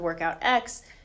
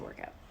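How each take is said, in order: First: The letter X is spoken at the end. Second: The X is not sounded at all. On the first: The speaker calls it wrong. "it's not the workout X" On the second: The speaker calls it right. "we pronounce it the workout"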